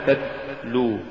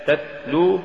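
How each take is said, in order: First: "تتلو" with the stopped t hissing like s; ta becomes sin-like. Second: Said in the usual way. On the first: Shown as a demonstration. Teacher showing an error, "تتلو" said with sin for ta. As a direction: let the second t of "تتلو" leak into s. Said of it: "تقرأ لحنا". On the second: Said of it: "استبدال التاء بالسين".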